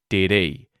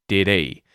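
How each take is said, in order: No difference in how they are said.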